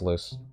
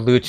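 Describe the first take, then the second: First: The name sounds like the English word "loose". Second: The name sounds Italian, like "loo-chay". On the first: The speaker calls it right. "It's it's it's loose" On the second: The speaker calls it wrong. "like she was Italian"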